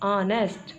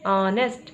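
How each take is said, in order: No difference in how they are said.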